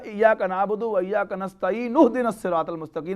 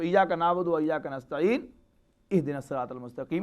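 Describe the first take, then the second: First: It is read joined with no pause before ihdina. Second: It is read with a pause before ihdina.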